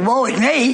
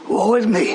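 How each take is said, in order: First: It is said plainly, without any mourning. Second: It is said in a mournful, lamenting way. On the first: The speaker is not really grieving. The speaker calls it wrong. "You can't say" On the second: The speaker is truly grieving. The speaker calls it right. "a good line to mourn with"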